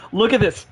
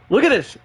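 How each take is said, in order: First: Said in the usual way. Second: "at" pushed higher in "Look at this"; emphatic repeat. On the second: Real, not acted. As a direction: repeat it, leaning hard on "at".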